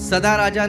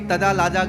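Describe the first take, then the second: First: The words are pronounced with clear s and r. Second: The s becomes t and r becomes l. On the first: "सदा राजा नहीं" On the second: "तोतला बोलना चाहिए"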